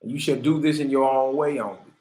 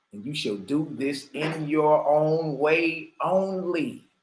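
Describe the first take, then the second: First: Said in the usual way. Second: Slow emphatic repeat. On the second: Shown as a demonstration.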